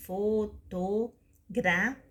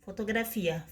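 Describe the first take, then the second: First: "fotografia" very slowly as fo, to, gra, fi, a; syllable by syllable. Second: Said in the usual way. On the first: Shown as a demonstration. Teacher dividing a long word for pupils, "fotografia" in five separate pieces. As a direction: pause after every syllable of "fotografia". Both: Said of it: "da seguinte forma".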